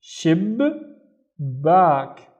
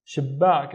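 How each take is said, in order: First: SHIB, pause, then BACK; syllable by syllable. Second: Said in the usual way. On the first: Shown as a demonstration. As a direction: break it as "shib ... back", each syllable alone. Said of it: "pronounce it once with the previous syllable". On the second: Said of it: "once with the next syllable".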